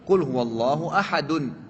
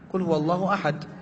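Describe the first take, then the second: First: The last word ends with a full vowel ending. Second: The last word ends on a bare consonant. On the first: "kan gitu" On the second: "Tapi antum baca apa?"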